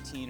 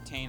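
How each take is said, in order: First: The vowel sounds like 'ee'. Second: The vowel sounds like 'ay'. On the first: "I like Teen because it just kind of rolls better in my mind" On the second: "however you prefer to pronounce it"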